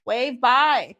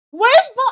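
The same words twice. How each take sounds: First: Said in the usual way. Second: Higher, louder urging command; insistent loud call. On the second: Real, not acted. To the co-host ending the episode, loud insistent call to wave. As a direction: push the co-host to wave now. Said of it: "You didn't wave bye".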